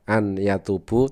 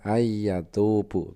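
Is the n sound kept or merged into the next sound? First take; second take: kept; merged. First: The n is clearly pronounced before the y. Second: The n merges into the following y sound. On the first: This is how it is written. "tulisan aslinya adalah" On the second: This is how it is recited. "dibacanya adalah"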